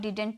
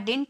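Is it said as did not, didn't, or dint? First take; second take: didn't; dint. First: Both d sounds are kept in a two-syllable contraction. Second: The middle d is dropped, giving one short syllable. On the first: "इसे हम डिडंट भी बोल सकते हैं" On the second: "हम इसे डिंट भी बोल सकते हैं"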